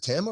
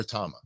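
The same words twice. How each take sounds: First: Tama with a flat A, as in "tam"; short flat A. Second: Tama with an open "ah", as in "father". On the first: Asking bandmate which pronunciation, Tama said TAM-uh. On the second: Asking bandmate which pronunciation, Tama said TAH-muh. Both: Shown as a demonstration. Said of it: "Is it a long A or a short A?".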